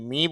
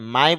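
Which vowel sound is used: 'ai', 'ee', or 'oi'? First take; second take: ee; ai. First: The vowel is said like 'ee'. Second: The vowel is said like 'ai'. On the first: The speaker calls it wrong. "এম I মি বলতে পারতেন" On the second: The speaker calls it right. "মাই বলতে পারতেন"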